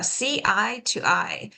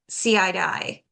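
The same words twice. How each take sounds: First: The words are said separately, not linked. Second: The words are linked together like one word.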